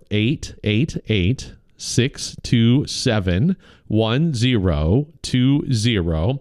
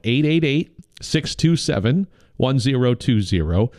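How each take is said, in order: First: The number is read more slowly. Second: The number is read at normal speed.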